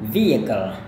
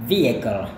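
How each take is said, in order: No difference in how they are said.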